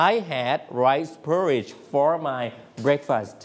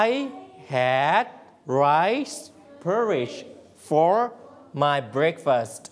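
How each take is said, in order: First: Slow repeat. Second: Word by word. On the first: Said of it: "ทวนใหม่". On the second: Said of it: "เราสามารถพูดเป็นภาษาอังกฤษได้ว่า". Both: Shown as a demonstration.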